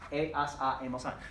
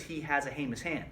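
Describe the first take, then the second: First: The H sound is silent at the start. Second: The H sound is pronounced at the start. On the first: The speaker calls it right. "because H's are silent" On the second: The speaker calls it wrong. "That doesn't say he has a heinous hand"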